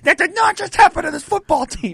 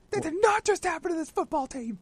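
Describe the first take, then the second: First: High, loud stunned call; shocked broadcaster call. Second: Mimicking shocked call. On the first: Retold or imitated. Announcer-like disbelief call. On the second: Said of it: "should have said Mitch after".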